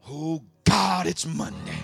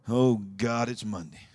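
First: It is said with joyful excitement. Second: It is said with a dreading groan.

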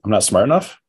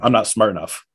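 First: It is said as a rising question. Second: It is said as a flat statement.

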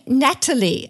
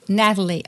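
First: The T sound in the middle is clearly pronounced. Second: The T sound in the middle is not pronounced. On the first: "maybe I should be saying Natalie" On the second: "I thought I sounded very American because I wasn't pronouncing the T"

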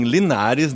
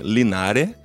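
First: The final S is clearly pronounced. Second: The final S is dropped, southern Spanish style.

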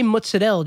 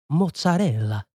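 First: It is said with an Americanized pronunciation. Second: It is said with an Italian pronunciation. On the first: This is how the speaker's family says it. "just because like my family and that's how everybody said it" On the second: This is how people in Italy say it. "if you go to Italy, they're like mozzarella"

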